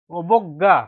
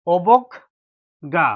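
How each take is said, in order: First: Said in the usual way. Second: অবজ্ঞা stretched very slowly; slow model word. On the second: Shown as a demonstration. Teacher explains the ending sound, অবজ্ঞা drawn out slowly. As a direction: draw out অবজ্ঞা for the class. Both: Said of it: "যদি শব্দের শেষে আছে".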